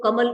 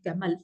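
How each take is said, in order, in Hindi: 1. पहला स्वर एक सामान्य छोटा 'a' है। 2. पहला स्वर 'ae' ध्वनि है।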